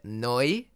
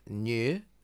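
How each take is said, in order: First: The word does not sound like English 'new'. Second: The word sounds like English 'new'. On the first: The speaker calls it right. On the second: The speaker calls it wrong.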